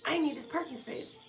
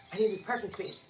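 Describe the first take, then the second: First: "I need this parking space" pitched higher as a whine; high, pleading whine; whiny plea. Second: Said in the usual way. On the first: Real, not acted. Repeats it, whining.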